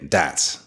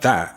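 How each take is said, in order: First: The word begins with a hard D sound. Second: The word begins with a soft TH sound. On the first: "T H sound pronounced more like a D" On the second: "instead of the word that"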